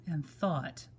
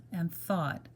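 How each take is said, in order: Both takes have the same delivery.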